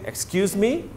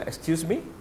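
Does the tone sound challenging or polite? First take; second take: challenging; polite. First: It is said in an indignant, challenging tone. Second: It is said in a polite, questioning tone. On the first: The listener is dared to repeat an offensive remark. "Your tone of voice also will determine what you mean. ... meaning you dare to say it again" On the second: The listener is asked to repeat something unclear. "you heard something but you were not clear"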